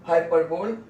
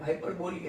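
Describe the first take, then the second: First: हाइपरबोल ending cleanly on ल with no vowel after it; correct pronunciation. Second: हाइपरबोली said with a long ई added at the end; common mispronunciation. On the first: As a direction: say हाइपरबोल the right way, stopping on ल with a slight rise. (हाइपरबोल को सही ढंग से, ल पर साफ़ रुककर बोलें) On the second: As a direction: quickly say हाइपरबोली as many people do, ending on ई. (हाइपरबोली को अंत में ई लगाकर जल्दी से बोलें) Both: Shown as a demonstration. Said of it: "कई लोग हाइपरबोली भी बोलते हैं".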